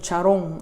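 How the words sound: The last syllable has an o vowel. This is how local Spanish speakers say it. "nosotros decimos"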